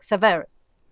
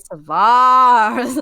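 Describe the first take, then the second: First: The name is said very quickly. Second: The name is said at a slower pace. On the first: The speaker calls it wrong. "like really fast" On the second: The speaker calls it right. "you need to say"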